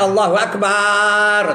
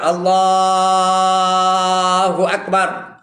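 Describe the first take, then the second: First: The syllable bar is drawn out long. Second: The word Allah is drawn out long. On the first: The speaker calls it wrong. "Jangan panjangkan bar tu, jangan Allahu Akbar. Tak betul" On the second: The speaker calls it right. "Allah tak apa. Allahu Akbar. Ha, tu boleh"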